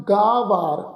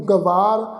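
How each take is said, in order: First: ਗਾਵਾਰ with a long first aa; right way to say ਗਾਵਾਰ; correct pronunciation. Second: ਗਵਾਰ with a short first vowel; wrong way, ਗਵਾਰ; wrong pronunciation. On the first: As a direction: say ਗਾਵਾਰ, stretching the kanna. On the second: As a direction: clip ਗਵਾਰ to show the mistake. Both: Shown as a demonstration. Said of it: "ਇਸ ਢੰਗ ਨਾਲ ਉਚਾਰਨ ਨਹੀਂ ਕਰਨਾ".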